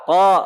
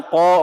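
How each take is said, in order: First: "Kok" with relaxed open lips, from the back of the tongue; plain unpouted qaf. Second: "kok" with lips pushed forward and rounded; wrong pouted qaf. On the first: Teacher corrects students' qaf, unpouted "Kok". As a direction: say "Kok" without rounding the lips. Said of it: "biasa aja, jangan monyong". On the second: Teacher mimics students' mistake, pouted "kok". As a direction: pout hard on "kok". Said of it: "nggak gitu". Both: Shown as a demonstration.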